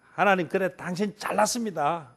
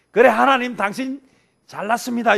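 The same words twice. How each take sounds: First: Muttered sarcasm. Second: Much higher and louder, picking a fight; loud sarcastic "fine, you're so great"; sarcastic jab at God. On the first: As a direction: say it under your breath with a sneer. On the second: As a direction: spit out 잘났습니다 like a sneering retort. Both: Retold or imitated. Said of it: "이건 시비 거는 거지".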